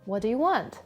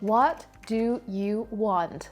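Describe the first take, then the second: First: The words run together into one blended chunk. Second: Each word is said clearly and separately. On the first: "a native speaker might say" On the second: "Instead of saying"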